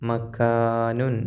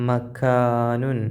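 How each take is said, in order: No difference in how they are said.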